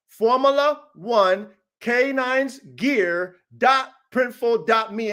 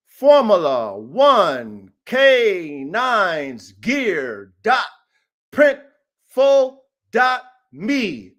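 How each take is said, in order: First: Slow dictation. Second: Slow spelled-out url. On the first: Coach dictating the store address to viewers, slowly and clearly. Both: Shown as a demonstration. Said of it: "Type it in exactly the way I say".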